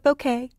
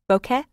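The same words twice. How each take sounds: First: The last syllable does not sound like 'ke'. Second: The last syllable sounds like 'ke' in kettle. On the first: The speaker calls it wrong. "Some people call it bokeh" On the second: The speaker calls it right. "bow, like bow tie, and ka, like kettle"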